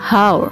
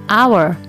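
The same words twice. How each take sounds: First: The word starts with an audible h sound. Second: The word starts with a vowel, no h sound. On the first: The speaker calls it wrong. "bukan hour" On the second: The speaker calls it right. "karena pengucapannya adalah hour"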